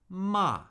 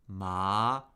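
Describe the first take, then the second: First: The pitch falls sharply from high to low. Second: The pitch rises from middle to high.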